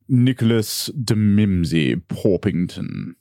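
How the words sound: It is said in a British English accent.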